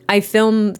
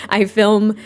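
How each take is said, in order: Both takes have the same delivery.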